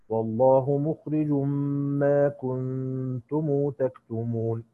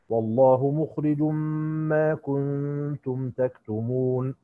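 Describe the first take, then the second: First: The m of kuntum is followed by a long u. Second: The m of kuntum is silent, with no vowel. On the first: "هنعطف له بالصلة" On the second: "فهنقرأ لقالون بالسكون"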